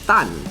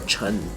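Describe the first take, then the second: First: The surname is said in Hokkien, as Tan. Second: The surname is said in Mandarin, as Chen. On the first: "In Hokkien, Ui, that is Tan" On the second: "from the Chinese word Chen"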